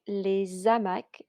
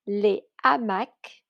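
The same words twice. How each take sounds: First: A z sound links the article to the noun. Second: The article and noun are said without linking. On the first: The speaker calls it wrong. "and not" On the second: The speaker calls it right. "we don't do the liaison"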